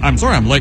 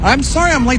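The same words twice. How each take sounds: First: The apology sounds flat and unconvincing. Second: The apology sounds earnest and sincere.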